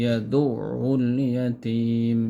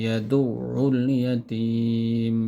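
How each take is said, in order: The two takes are said the same way.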